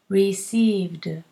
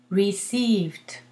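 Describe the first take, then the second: First: The word ends with a d sound. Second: The word ends with a t sound. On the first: "Because a D is difficult. Listen" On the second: "I recommend you do a T for the ED"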